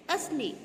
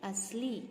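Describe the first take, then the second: First: असली with short final i, "asli"; wrong pronunciation. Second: असली with long final ee, "as-lee"; careful model "aslee" for असली; correct pronunciation. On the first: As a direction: say असली higher and quick, ending short. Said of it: "असली नहीं बोलते हैं". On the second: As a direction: say असली easily, holding the last vowel. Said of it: "क्या होता है?". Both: Shown as a demonstration.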